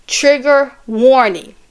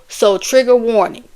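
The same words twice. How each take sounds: First: Slow "Trigger warning" with weight on "trigger"; solemn slow heads-up; dramatic warning. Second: Said in the usual way. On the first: Shown as a demonstration. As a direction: draw out "Trigger warning" like an ominous announcement. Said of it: "So trigger warning, okay?".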